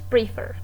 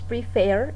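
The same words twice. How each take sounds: First: The stress is on the first syllable. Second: The stress is on the second syllable. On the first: The speaker calls it wrong. "entonces no es prefer" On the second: The speaker calls it right. "decimos prefer y la entonación de voz está en la última sílaba"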